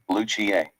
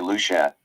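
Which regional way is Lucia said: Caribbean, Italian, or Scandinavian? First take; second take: Italian; Caribbean. First: It is said the Spanish or Italian way. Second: It is said the Caribbean way. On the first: "If you're Spanish or Italian, you'd say" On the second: "In the Caribbean, you'd say"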